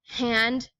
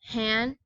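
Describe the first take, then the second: First: The final d sound is pronounced. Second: The final d sound is dropped.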